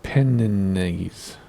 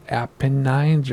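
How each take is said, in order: First: "Apennines" drawn out as uh-PEN-uh-neez; Apennines ending in "neez". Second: "Apennines" as APP-uh-nines; Apennines ending in "nines". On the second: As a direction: end "Apennines" on a long-I "nines". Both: Shown as a demonstration. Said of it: "Is it Apennines or".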